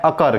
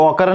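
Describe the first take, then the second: First: अकर with a short 'uh' start; unrounded first vowel in अकर; correct reading of occur. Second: ऑकर with a rounded 'o' start; wrong reading of occur. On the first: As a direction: say अकर as 'uh-kar'. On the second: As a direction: say ऑकर as 'aw-kar'. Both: Shown as a demonstration. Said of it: "इसको ऑकर नहीं पढ़ना है".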